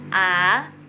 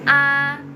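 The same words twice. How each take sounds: First: The vowel is said with the second tone. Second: The vowel is said with the first tone. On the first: "nomor dua A" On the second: "Nomor satu A"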